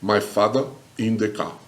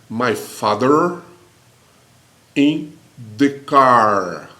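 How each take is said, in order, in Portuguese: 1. Os sons do r final são omitidos. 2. Os sons do r final são claramente pronunciados. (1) "Olha o britânico" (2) "o inglês americano fala assim"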